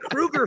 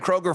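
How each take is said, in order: First: The name is said like 'Krueger'. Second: The name is said unlike 'Krueger'. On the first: This is how his family says the name. The speaker calls it right. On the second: This is how everyone else has been saying the name. The speaker calls it wrong.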